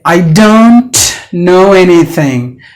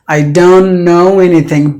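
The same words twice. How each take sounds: First: The T in don't is pronounced. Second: The T in don't is silent. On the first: The speaker calls it wrong. "You don't say" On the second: The speaker calls it right. "because the T is gone"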